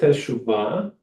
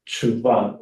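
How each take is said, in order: First: The first vowel is clearly pronounced. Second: The first vowel is dropped and it is short. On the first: "with the shvana a little bit more pronounced" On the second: "the way that it really comes out is tshuva. It's like super short"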